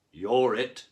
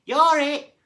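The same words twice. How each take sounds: First: Cried out. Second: Very high, very loud howl; a haddock howling the tag call. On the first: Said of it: "cried a cod". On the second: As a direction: howl it as loud as you can. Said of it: "howled a haddock". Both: A narrator's reading.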